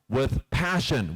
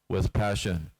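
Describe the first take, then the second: First: It is said with strong emotion and energy. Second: It is said flatly with little emotion. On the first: The speaker feels what they say. The speaker calls it right. "They speak like this with conviction" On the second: The speaker does not feel what they say. The speaker calls it wrong. "I don't even feel what I'm saying"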